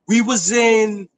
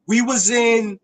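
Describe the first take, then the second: No difference in how they are said.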